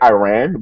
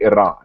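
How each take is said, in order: First: The name is said with an American pronunciation. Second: The name is said with a non-American pronunciation. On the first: The speaker calls it wrong. "they were saying Iran ... Americans only say Iran" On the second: The speaker calls it right. "but it's really Iran"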